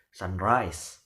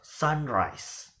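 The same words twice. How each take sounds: First: The stress is on the second syllable. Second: The stress is on the first syllable. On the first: The speaker calls it wrong. "It would never be it won't ever be" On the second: The speaker calls it right. "the stress is given in the first in the first syllable"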